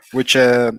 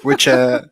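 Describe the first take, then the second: No difference in how they are said.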